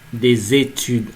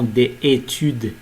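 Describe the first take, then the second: First: The s sound links into études. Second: No s sound links into études. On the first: The speaker calls it right. "c'est la liaison entre S et E accent" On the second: The speaker calls it wrong. "on ne doit pas dire"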